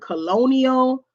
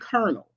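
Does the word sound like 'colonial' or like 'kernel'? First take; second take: colonial; kernel. First: It is said with an L, like colonial. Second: It is said with an R, like kernel. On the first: The speaker calls it wrong. "a lot of people pronounce the second word colonial" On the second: The speaker calls it right. "but it's actually colonel"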